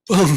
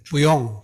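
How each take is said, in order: First: It is merged into a single syllable. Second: It is said as two separate syllables. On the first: "뿌용을 합쳐가지고 뻥 이렇게 된 거예요" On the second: "짧게 말할 때 보통 중국 사람들은 불용 이런 말을 쓰거든요"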